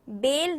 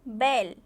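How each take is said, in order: First: The vowel is a plain 'e' sound. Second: The vowel is a broad 'ai' sound. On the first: The speaker calls it wrong. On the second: The speaker calls it right.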